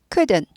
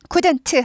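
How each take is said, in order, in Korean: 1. 끝 t는 거의 들리지 않아요. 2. 끝 t는 강하게 터뜨려 발음해요. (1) "t가 잘 발음 안 돼요" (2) "couldn't 하고 강조되지 않아요"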